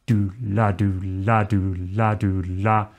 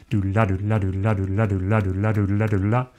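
First: Slow swing chant. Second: Chanted, quick, running do la with la accented; chanted, rattle off do la in fast swung triplets; fast swing chant. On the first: Teacher showing swing if it's slow, unhurried chant. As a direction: chant do la slowly, keeping it consistent. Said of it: "especially if it's slow". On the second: Teacher showing swing if it's fast, quick chant. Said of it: "If it's fast". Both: Shown as a demonstration.

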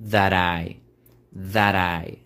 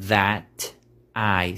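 First: Linked "that I" with a flap. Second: "that I" with a hard stop between "that" and "I"; choppy "that I"; cut off. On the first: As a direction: tap the T into "I". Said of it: "vamos a decir". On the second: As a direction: break "that" sharply before "I". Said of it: "suena un poco cortado al decir that I". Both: Shown as a demonstration.

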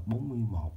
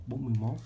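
First: "Bốn mươi một" with the plain heavy "một"; spelled-out reading. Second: "bốn mươi mốt" with a rising "mốt"; Northern reading. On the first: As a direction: say "một" fully, as the written digit one. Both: Shown as a demonstration. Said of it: "đọc theo kiểu người Bắc á".

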